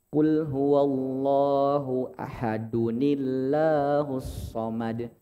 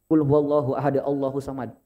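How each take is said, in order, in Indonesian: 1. Ahad tersambung ke Allah dengan tambahan 'nil'. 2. Ahad tersambung ke Allah tanpa tambahan n. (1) "tapi yang tepat" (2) "itu cara bacanya bukan"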